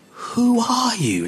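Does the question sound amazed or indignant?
amazed. The question sounds amazed and full of wonder. The asker is awed by how extraordinary the person is. "Like, dude, no other man ever spoke like this"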